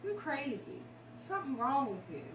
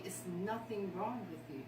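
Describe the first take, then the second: First: Higher, mocking accusing voice; harsh accusation. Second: Softer, quietly reassuring husband; gentle reassurance. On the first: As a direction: throw the old insult back, sharply. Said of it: "all my life I heard". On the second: Retold or imitated. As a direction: tell her gently there is nothing wrong. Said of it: "he told me".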